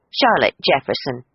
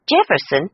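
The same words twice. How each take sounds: First: Said in the usual way. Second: Clipped. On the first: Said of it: "in the same clipped tones". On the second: A narrator's reading. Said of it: "she returned in the same clipped tones".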